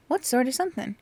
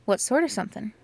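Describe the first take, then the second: First: The question asked higher and more pressing; higher, more curious. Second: Said in the usual way. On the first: Acted. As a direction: lift it, like a curious girl.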